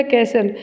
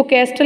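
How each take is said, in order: First: कैसल with no T sound; silent T. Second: कैस्टल with the T sounded; wrong reading कैस्टल, audible T; mispronunciation demo. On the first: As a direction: say कैसल, going from S straight to L. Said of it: "ऐसे इसमें silent होता है". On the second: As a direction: say कैस्टल, pronouncing the T after the S. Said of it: "इसको कैस्टल नहीं पढ़ेंगे". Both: Shown as a demonstration.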